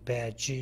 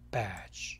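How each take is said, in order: First: A vowel is added after the final j. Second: It ends on a bare j sound. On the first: The speaker calls it wrong. "이 발음을 붙이면은 이음절어로 돼서 잘못된 발음이죠" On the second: The speaker calls it right. "이 발음이 없이 j, j 이 소리로 끝내야 됩니다"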